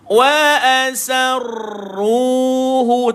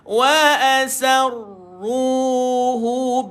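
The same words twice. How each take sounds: First: The doubled r is strongly trilled. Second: The doubled r is only lightly trilled. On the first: The speaker calls it wrong. "Jangan kedengaran kuat dia punya getar pada ra. Wa asarruhu, tak boleh" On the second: The speaker calls it right. "Ra itu dia minimum je bunyi getar dia"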